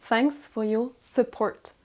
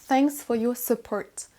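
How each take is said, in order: The two takes are said the same way.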